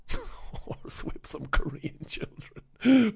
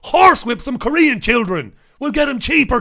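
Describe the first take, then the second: First: Slow, quiet, giggling through it; laughing repeat. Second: Louder, higher, hammed-up punchline; mock outraged joke. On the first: Real, not acted. Repeating his joke to listeners, slow and laughing. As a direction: laugh at your own joke as you say it. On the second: Joking about Tez's cheap workers, loud hammed-up delivery. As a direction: push the joke out big.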